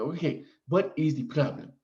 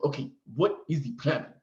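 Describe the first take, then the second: First: Lightly put-on Nigerian accent, clipped and careful; mock Nigerian accent. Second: Second take of the nurse's put-on Nigerian accent, just as light; mock Nigerian accent. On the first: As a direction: imitate the Nigerian nurse's accent, only a hint. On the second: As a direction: repeat the nurse's question with a hint of Nigerian accent. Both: Nigerian nurse asking the patient what is wrong, light mock accent. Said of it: "she didn't talk like this. I'm just doing it for effect".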